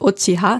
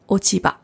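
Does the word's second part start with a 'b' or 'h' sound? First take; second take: h; b. First: The second part starts with an 'h' sound. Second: The second part starts with a 'b' sound. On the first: The speaker calls it wrong. "nicht Ochiha" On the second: The speaker calls it right. "sondern Ochiba"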